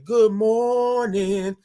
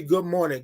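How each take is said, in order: First: MORNING stretched out long and higher; slow sing-out morning call; drawn-out greeting. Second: Said in the usual way. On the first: Shown as a demonstration. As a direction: hold GOOD MORNING out on a raised note. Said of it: "y'all gotta say it like that".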